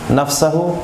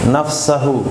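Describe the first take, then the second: Both takes have the same delivery.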